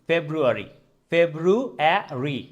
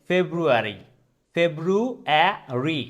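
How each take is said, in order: Both takes have the same delivery.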